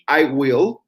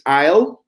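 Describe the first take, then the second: First: Will is said in full as a separate word. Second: Will is shortened and joined onto the pronoun. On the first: "It would be I will" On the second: "with the contracted form, it's I'll"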